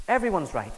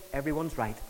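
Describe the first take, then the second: First: Said in the usual way. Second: Quoting the postmodern view. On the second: Retold or imitated. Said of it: "what it says is".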